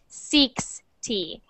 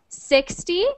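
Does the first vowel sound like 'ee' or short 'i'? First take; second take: ee; short i. First: The first vowel is a long 'ee' sound. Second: The first vowel is a short 'i' sound. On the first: The speaker calls it wrong. "make sure that si doesn't sound like C" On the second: The speaker calls it right. "So that is an I sound when you say sixty"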